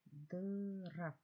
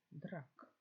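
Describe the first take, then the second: First: Slow sounding-out of Драк, drawn long; drawn-out syllable. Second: Said in the usual way. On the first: Shown as a demonstration. Teacher sounding out Драк for pupils, drawn long. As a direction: stretch Драк out slowly, letter by letter. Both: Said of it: "Це рак".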